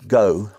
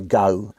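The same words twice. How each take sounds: First: It is said in a standard English accent. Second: It is said in a Cockney accent. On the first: "instead of saying things like go" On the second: "a Cockney would say go"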